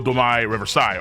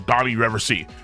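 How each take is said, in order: First: The 'i' sound in the first word is drawn out. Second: The 'i' sound in the first word is plain.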